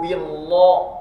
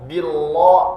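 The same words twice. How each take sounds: First: The l sound is heavy and thick. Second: The same.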